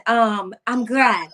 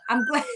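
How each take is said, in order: First: Said in the usual way. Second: Crying. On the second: Real, not acted. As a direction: voice cracks high into a sob. Voice breaks into tears.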